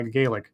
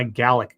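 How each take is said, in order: First: "Gaelic" slipping out as GAY-lick; mistaken Irish pronunciation. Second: "Gaelic" corrected to GAL-ick; corrected Scottish pronunciation. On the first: Streamer asking how his language is, mistaken GAY-lick pronunciation. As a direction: say "Gaelic" with a long AY, low and soft. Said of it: "God damn it". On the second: Streamer retrying his question, corrected GAL-ick pronunciation. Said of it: "it's Gaelic if it's Scottish". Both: Real, not acted.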